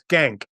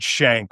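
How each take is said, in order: First: The name begins with an 'sk' sound. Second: The name begins with an 'sh' sound. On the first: "no, it's it's Skank" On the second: "their descendants pronounce it Shank, which is a little easier on the ear"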